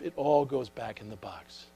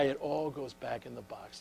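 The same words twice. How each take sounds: First: Said in the usual way. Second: Softer, with the weight on "it"; quiet punchline. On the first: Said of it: "his grandmother smiled and said". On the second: Real, not acted. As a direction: drop the voice to land the lesson on "it all goes back in the box". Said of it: "Baby, when you die".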